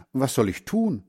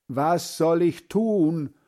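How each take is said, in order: First: Said in the usual way. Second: Slow, higher, called out; calling louder. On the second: Acted. Boy calling louder to his deaf grandfather. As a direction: repeat it up loud and slow for a deaf ear. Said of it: "ruft Hans Frieder".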